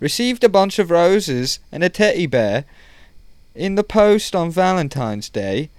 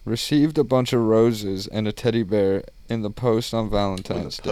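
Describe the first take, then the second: First: It is read in a put-on British-style accent. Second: It is read in the speaker's natural accent.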